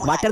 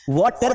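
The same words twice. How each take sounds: First: वाटर said the Hindi way, open "aa" and not the rounded vowel; wrong pronunciation. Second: वाटर as English "water", the first vowel round and open, "waw-ter"; correct pronunciation. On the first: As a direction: say वाटर with a flat Hindi "aa", like "waa-ter". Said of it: "वाटर नहीं बोलना है". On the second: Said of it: "हमारे pronunciation को हमें सही करना है". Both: Shown as a demonstration.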